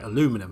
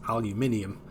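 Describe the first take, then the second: First: It is said with four syllables, North American style. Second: It is said with five syllables, British style. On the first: "as you would say" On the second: "what I would say is aluminium"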